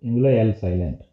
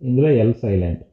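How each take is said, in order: Both takes have the same delivery.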